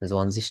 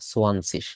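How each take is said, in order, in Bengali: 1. শব্দটি 'j' ধ্বনি দিয়ে শুরু হয়। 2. শব্দটি 's' ধ্বনি দিয়ে শুরু হয়। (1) "জোয়ানজিস না"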